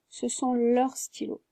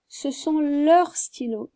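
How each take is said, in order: First: Said in the usual way. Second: Ce sont leurs stylos, said slowly with leurs stressed; slow emphatic model. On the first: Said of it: "Ici, on a un S à leur". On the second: Shown as a demonstration. Teacher stresses leurs while giving the answer. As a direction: lean on leurs to show the S. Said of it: "donc je dirais".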